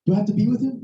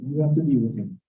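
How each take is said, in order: First: "with him" lifted into a rising question; acted question, pitch climbing to "him". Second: Low, falling official answer; acted low-pitched matter-of-fact reply; deadpan clerk. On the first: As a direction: ask it anxiously, rising on "with him". Customer asks, clerk echoes. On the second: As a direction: echo it back as an unmoved clerk. Clerk echoes the customer's question.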